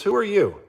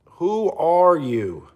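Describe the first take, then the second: First: Higher, quick challenge; dismissive challenge. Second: Slow, drawn-out, higher challenge; scornful emphasis. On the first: Streamer putting down a viewer, dismissive. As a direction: throw the question back at them. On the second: Streamer putting down a viewer, slow and scornful. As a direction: stretch each word of the question with disdain. Same question repeated for emphasis. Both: Real, not acted.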